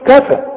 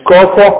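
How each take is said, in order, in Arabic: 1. صوت k خفيف ورقيق. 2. صوت k ثقيل ومفخم. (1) "شوف كفى" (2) "مش كفى"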